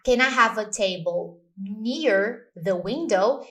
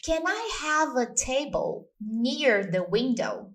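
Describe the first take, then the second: First: Slow, rising "Can I have a table near the window?"; slow practice read; slow model sentence. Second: Slow, clear "Can I have a table near the window?"; slow teacher model; slow model sentence. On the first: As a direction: read it out slowly as a drill. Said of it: "Vamos exercitar". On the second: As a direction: spell it out slowly for students. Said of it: "Como que fica uma mesa in English". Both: Shown as a demonstration.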